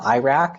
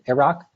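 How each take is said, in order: First: It is pronounced in a more American way. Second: It is pronounced in a less American way. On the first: The loan word is more integrated into English. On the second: The loan word is less integrated into English.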